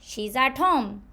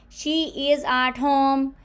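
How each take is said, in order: First: She and is merge into one contracted syllable. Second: She and is are said as separate full words. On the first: The speaker calls it right. "आप इस तरह बोलो" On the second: The speaker calls it wrong. "इसको कहने की बजाय"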